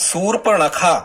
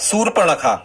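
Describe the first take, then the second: Both takes have the same delivery.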